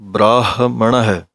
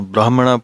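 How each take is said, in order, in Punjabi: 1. ਅੰਤ ਦੀ 'ਹ' ਦੀ ਆਵਾਜ਼ ਸਾਫ਼ ਸੁਣਾਈ ਦਿੰਦੀ ਹੈ। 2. ਅੰਤ ਦੀ 'ਹ' ਦੀ ਆਵਾਜ਼ ਛੱਡ ਦਿੱਤੀ ਜਾਂਦੀ ਹੈ। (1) "ਹਾਹੇ ਦੀ ਆਵਾਜ਼ ਵਿੱਚ ਆਉਣੀ ਚਾਹੀਦੀ ਹੈ" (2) "ਕਈ ਛੱਡ ਜਾਂਦੇ ਹਨ"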